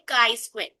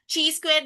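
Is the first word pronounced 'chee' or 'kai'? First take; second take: kai; chee. First: The first word is pronounced 'kai'. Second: The first word is pronounced 'chee'. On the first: The speaker calls it right. "इसको बोलते हैं काई square" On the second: The speaker calls it wrong. "इसकी pronunciation ची square नहीं है"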